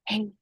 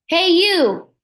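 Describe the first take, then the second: First: It is said very softly. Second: It is said very loudly.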